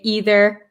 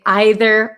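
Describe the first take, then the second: First: It is said with an American pronunciation. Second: It is said with a British pronunciation. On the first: "I'm from America, so I say either and neither" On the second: "British people, or um, some people in America too, say either or neither"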